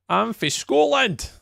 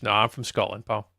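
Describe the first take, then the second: First: "I'm from Scotland" said much higher and slower with "Scotland" stretched and falling; emphatic correction. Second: Said in the usual way. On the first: Real, not acted. Streamer correcting a viewer who called him Irish, emphatic. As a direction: drag out "Scotland" high and hard to set them straight. Repeats after chat asks Irish.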